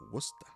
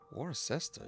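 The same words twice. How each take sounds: First: It is said in a Massachusetts accent. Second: It is said the way an outsider says it.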